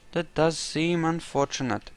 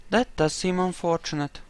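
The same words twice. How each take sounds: The two takes are said the same way.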